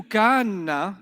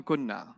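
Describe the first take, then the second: First: "kanna" with a drawn-out kaan, then na; long vowel kept. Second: "kunna" with a short u and doubled n; long vowel dropped. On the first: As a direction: hold the aa in "kanna" before the doubled n. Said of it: "They don't do that". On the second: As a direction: say "kunna" as short kun, then na. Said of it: "What letter will they get rid of". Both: Shown as a demonstration.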